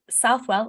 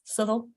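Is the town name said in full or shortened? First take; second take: full; shortened. First: The name is pronounced fully as written. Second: The name is clipped with flat vowels. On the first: "a place near here called Southwell" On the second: "It's Southall"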